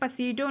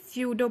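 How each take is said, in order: First: The word begins with a pronounced p sound. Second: The word begins with an s sound, p silent. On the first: The speaker calls it wrong. "ये पसीडो नहीं पढ़ा जाएगा" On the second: The speaker calls it right. "इसमें पी जो है वो silent है"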